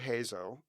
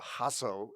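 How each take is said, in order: First: The name is said the anglicized way. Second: The name is said the Lebanese way. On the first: The speaker calls it wrong. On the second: The speaker calls it right.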